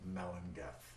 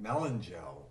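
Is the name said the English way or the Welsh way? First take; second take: Welsh; English. First: The name is said with Welsh pronunciation. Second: The name is said as English spelling suggests. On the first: "in the Welsh pronunciation would be pronounced" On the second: "It looks like it would be pronounced"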